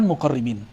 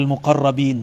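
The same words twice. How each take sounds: First: Muqarribin, I in place of the middle A; "-ribin" ending on muqarribin. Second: Muqarrabin said slowly, A before the B-IN ending. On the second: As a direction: say muqarrabin, with "ra" in the middle. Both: Shown as a demonstration. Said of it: "bukan muqarribin".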